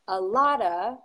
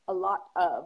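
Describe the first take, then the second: First: The phrase is reduced, with 'of' shortened. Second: The phrase is said fully, with 'of' pronounced. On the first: "a lotta is much easier to say" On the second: "than a lot of"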